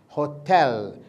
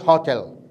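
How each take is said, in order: First: The stress is on the second syllable. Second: The stress is on the first syllable. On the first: The speaker calls it right. "because the stress is in the second syllable" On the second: The speaker calls it wrong. "not hotel"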